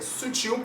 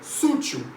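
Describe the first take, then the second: First: The stress is on the last syllable. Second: The stress is on the first syllable. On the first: The speaker calls it right. "é sutil porque é uma oxítona" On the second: The speaker calls it wrong. "Algumas pessoas pronunciam, não sei porquê"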